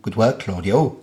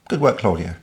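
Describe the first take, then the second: First: It is said in a put-on Welsh accent. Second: It is said in the speaker's ordinary accent.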